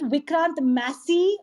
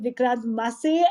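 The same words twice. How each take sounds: First: "Massey" as MASS-ee; first-option pronunciation. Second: "Massey" as muh-SAY; alternative pronunciation. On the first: Host asking actor which surname is right, MASS-ee option. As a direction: say "Massey" with an open a and a final ee. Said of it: "is it Vikrant Massey or". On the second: Host offering actor the other surname option, muh-SAY. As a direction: say "Massey" with a short uh and a final ay. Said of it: "or is it Vikrant Massey". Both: Shown as a demonstration.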